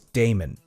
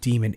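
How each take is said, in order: First: The first syllable sounds like 'day'. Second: The first syllable sounds like 'dee'. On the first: The speaker calls it right. "It is Damon" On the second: The speaker calls it wrong. "She says demon"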